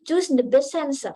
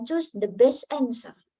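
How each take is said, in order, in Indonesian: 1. Katanya disambung jadi satu kesatuan. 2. Katanya diucapkan terpisah, satu per satu. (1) "Kayak tadi"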